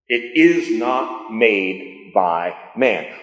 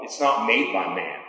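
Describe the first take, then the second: First: Slow, deliberate stress on "is not"; "It is not" weighted, each word set apart; emphatic restatement. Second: Said in the usual way. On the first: Real, not acted. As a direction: spell it out word by word, leaning on "is".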